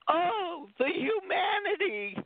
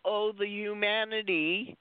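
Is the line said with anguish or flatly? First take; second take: anguished; flat. First: The line is said with anguished emotion. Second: The line is said flatly, without emotion. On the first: The speaker is overwhelmed by a horrific disaster. The speaker calls it right. "that there was that tone in the reporter's voice" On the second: The speaker does not grasp the tragedy behind the line. The speaker calls it wrong. "kind of more in a plain voice"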